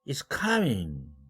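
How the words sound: The pitch jumps very high at the end. The speaker is surprised. "사까지 초고음으로 올라갔어요"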